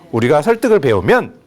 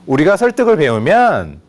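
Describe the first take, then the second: First: The last syllable stops sharply before the pause. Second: The last syllable is dragged out before the pause. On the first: The speaker calls it right. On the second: The speaker calls it wrong.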